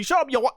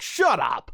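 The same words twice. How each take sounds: First: High British "Shut up, you wa-" chopped off mid-word; cut-off British insult. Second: Said in the usual way. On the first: Retold or imitated. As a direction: stop dead on "wa-" like a hard audio cut. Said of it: "he would literally". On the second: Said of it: "record the line where he goes like".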